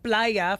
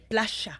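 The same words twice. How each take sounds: First: It is said in a Mexican Spanish accent. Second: It is said in a River Plate Spanish accent. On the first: "instead of playa for the beach" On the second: "they say playa"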